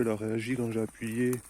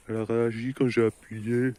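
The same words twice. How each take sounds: First: Said in the usual way. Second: Louder, thrilled; excited repeat. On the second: Real, not acted. Gamer thrilled the bubble reacted, louder.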